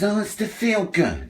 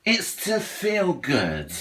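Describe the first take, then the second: First: Slow, higher sing-song mockery of what everyone says; first take pitched up and drawn out; mocking quote. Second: Slower, softer, dragged-out repeat of the excuse; second take quieter and slower; softer mocking echo. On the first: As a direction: parrot the excuse with mock sweetness. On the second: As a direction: let the mockery fade as you repeat it. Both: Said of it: "everyone says".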